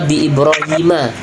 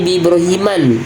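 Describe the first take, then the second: First: The name ends with a short 'a' sound. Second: The name ends with an 'an' sound. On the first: The speaker calls it right. "Maka bi Ibrahima" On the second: The speaker calls it wrong. "nggak boleh bi Ibrahiman"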